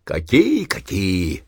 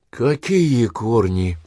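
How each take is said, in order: First: Mild cursing start. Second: Slow, stunned question. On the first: Dying old man starts cursing at wife, then breaks off. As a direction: start to swear, then choke it off. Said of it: "Заматерился было Семён Кузьмич". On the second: Wife stunned by husband's death talk, slow dazed question. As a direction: ask it slowly, dumbfounded. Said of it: "обомлела Таисия Никитична". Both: Acted.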